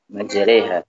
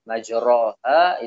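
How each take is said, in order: First: The vowel after r leans strongly toward i. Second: The vowel after r is a full open a. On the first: "dibaca dengan imalah" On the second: "fathah sempurna"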